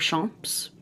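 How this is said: The word is said with French pronunciation.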